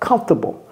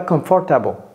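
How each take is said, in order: First: It is said with an American English pronunciation. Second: It is said with a French-style pronunciation. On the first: The speaker calls it right. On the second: The speaker calls it wrong.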